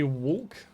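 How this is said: It is said in an everyday, unstyled way. The speaker calls it wrong. "I used to say it like that"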